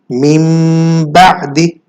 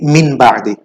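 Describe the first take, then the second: First: The first word ends in a nasal m sound. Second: The first word ends in an n sound. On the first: The speaker calls it right. "We do it mim ba'di" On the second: The speaker calls it wrong. "not min min ba'di"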